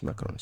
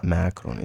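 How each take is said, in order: First: "macaroni" with a reduced first vowel, m'kroni; corrected pronunciation. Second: "macaroni" with a full English first syllable, MAC; wrong pronunciation. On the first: Teacher correcting the word, corrected pronunciation. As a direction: squeeze "macaroni" into a quick, soft m'kroni. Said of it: "it's just macaroni". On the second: Teacher rejecting a form, wrong pronunciation. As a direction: say "macaroni" with an open "mack" at the start. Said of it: "It's not macaroni". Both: Shown as a demonstration.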